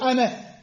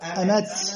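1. تنتهي الكلمة بصوت هاء خفيف. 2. تنتهي الكلمة بصوت تاء موقوفة. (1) "لازم يصير أمه" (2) "ايش قال الشاعر؟"

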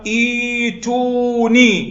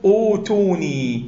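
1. تبدأ الكلمة بحرف المد 'ee'. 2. تبدأ الكلمة بحرف المد 'oo'. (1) "فكيف نقرأ؟ نقرأ ائتوني" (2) "ولا تقل أوتوني"

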